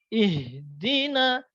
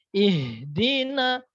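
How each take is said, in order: No difference in how they are said.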